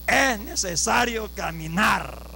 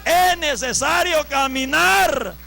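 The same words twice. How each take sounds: First: Measured emphasis. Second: Slow, loud preacher's proclamation; forceful exhortation. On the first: Preacher exhorting brothers to walk, measured emphasis. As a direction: stretch the words out without shouting. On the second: Preacher exhorting brothers to walk, forceful exhortation. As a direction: drive every stretched word out at full force. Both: Real, not acted.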